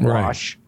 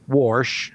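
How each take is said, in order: First: The word has no r sound before sh. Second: The word has an r sound before sh. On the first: This is the usual way elsewhere. "instead of Wash" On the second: This is how people talk in Kansas. "we also say Warsh"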